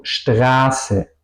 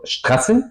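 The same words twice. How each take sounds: First: Long drawn A in "Straße"; vocal larga. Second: Short A in "Straße"; vocal corta. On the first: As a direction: stretch the A of "Straße", then a long S. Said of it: "es larga". ("Straße" con a larga y ese larga) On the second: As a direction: say "Straße" with a quick, cut-off A. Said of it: "no digo". ("Straße" con a corta) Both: Shown as a demonstration.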